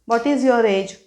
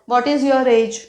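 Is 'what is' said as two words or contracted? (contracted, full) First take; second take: full; full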